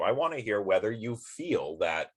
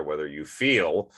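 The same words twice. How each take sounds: First: Said in the usual way. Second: Slow, with feel leaned on as a pun; stress on feel. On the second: Shown as a demonstration. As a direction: let "feel" land slowly and knowingly. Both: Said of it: "see what I did there?".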